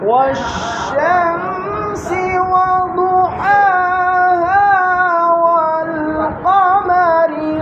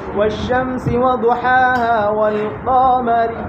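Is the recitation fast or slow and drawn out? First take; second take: slow; fast. First: It is recited slowly with long drawn-out vowels. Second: It is recited quickly with short vowels. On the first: "আপনি যদি মুজাওয়াত করেন" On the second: "আপনি যদি হদর বলেন"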